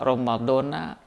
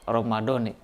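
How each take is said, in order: First: The word ends with an a vowel. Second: The word ends with an i vowel. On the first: "Sebetulnya bisa dibaca Ramadona" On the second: "yang kedua bisa dibaca Ramadoni"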